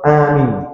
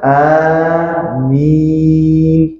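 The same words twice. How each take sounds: First: The first vowel is kept short. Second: The first vowel is drawn out long. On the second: "Kalau dengan mat"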